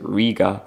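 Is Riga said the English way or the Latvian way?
English. It is said with a typical English pronunciation. This is how most English speakers say the name. "most English people say Riga"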